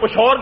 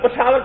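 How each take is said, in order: First: Two syllables with a sh sound in the middle. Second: Three syllables with a sh sound in the middle. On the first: This is how people in the Hazara region say it. "Mansehra کے علاقے میں چلے جائے تو پشور کہتے ہیں" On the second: This is how Urdu speakers say it. "ہم اردو والے لوگ پشاور کو پشاور کہتے ہیں"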